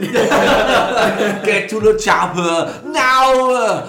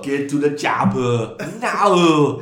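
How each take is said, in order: First: The impression is said in a higher voice. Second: The impression is said in a lower voice. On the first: The speaker calls it wrong. "It needs to be a bit lower, though" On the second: The speaker calls it right. "That's way better"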